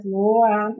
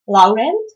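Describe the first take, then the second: First: "Laurent" as lo-RAHN, final t silent; French-style pronunciation. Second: "Laurent" as LAU-rent, every letter sounded; read as in Czech. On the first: Showing viewers how it should be called, "Laurent" French-style. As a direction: say "Laurent" with an o sound and nasal ending. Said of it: "it should be called". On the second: Reading the word list for viewers, "Laurent" as spelled, Czech-style. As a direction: say "Laurent" as written, final t heard, voice rising. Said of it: "as I would read them in Czech". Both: Shown as a demonstration.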